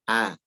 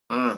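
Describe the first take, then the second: First: The vowel stays out of the nose. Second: The vowel is pushed through the nose. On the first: The speaker calls it right. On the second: The speaker calls it wrong.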